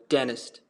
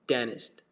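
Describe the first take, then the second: First: It is said in an American accent. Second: It is said in an American accent.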